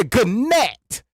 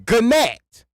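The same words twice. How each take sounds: First: Gannett slowly, hard G, stress on the second syllable; slow sounded-out G. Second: Gannett with a hard G, stress on the second syllable; sounding out G. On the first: Mocking English spelling, says gnat as Gannett. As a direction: draw out Gannett. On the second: Mocking English spelling, saying gnat as Gannett. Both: Shown as a demonstration. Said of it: "in my words".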